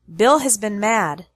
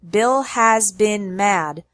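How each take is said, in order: First: 'Has been' is said softer, faster and reduced. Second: 'Has been' is said fully and strongly. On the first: The speaker calls it right. "We say" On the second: The speaker calls it wrong. "We don't say"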